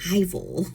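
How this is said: It is said in an English accent.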